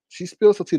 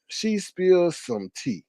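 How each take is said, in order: First: SPILLS hit louder and higher; loud emphatic repeat; punchy repeat. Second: Each word stretched out slow; slow teasing reveal; drawn-out tea spill. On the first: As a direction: punch spills like juicy gossip. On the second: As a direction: savour the words, dragging them out slowly. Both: Shown as a demonstration.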